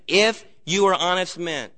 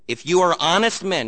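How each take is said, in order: First: "If" punched, slight break, then "you are honest men"; stress on IF. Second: Said in the usual way. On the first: Shown as a demonstration. Preacher shows his congregation a repeated condition, stressed "If". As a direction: lean hard on the word "If". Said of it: "I'm stressing that". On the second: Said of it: "notice his stress again".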